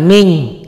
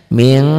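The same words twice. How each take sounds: First: "ming" with a full hard ng, louder; the wrong way, pure ng in "ming"; wrong pronunciation. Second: "ming" with a light m and a trace of ng; correct ikhfa nasal. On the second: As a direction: say "ming" with lips not fully closed. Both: Shown as a demonstration. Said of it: "jangan ming".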